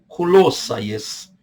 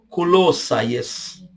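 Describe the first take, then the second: No difference in how they are said.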